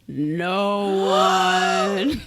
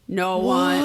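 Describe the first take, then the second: First: It is said dramatically, with suspense. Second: It is said flatly, without drama.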